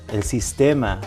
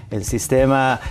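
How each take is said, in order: Both takes have the same delivery.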